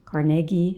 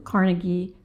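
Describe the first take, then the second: First: The name is said in the Pittsburgh way. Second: The name is said in the general way.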